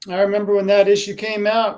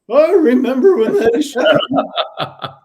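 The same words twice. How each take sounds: First: It is said in his normal voice. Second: It is said in a put-on old man voice.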